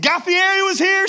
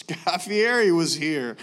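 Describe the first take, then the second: First: High, loud thrilled question; fanboy asking the waitress, higher and louder; excited. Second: Said in the usual way. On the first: Retold or imitated. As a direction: burst out like a starstruck fan.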